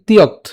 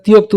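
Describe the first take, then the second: First: "তিয়ক্ত" cut at the t, ti-yokt; hasanta, vowelless ending. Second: "তিয়ক্ত" ending in a sounded o, ti-yok-to; open final vowel. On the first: Teacher explains the hasanta, "তিয়ক্ত" ending on bare kt. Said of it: "হসন্ত থাকার কারণে উচ্চারণ হচ্ছে". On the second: Teacher shows it without hasanta, "তিয়ক্ত" as ti-yok-to. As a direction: say "তিয়ক্ত" with the vowel after the last t. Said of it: "যদি হসন্ত না থাকতো". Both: Shown as a demonstration.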